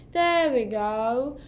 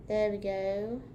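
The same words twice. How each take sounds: First: Put-on slow, louder British-accented there we go; playful fake British accent, stretched out. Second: Said in the usual way. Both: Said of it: "talking in a British accent".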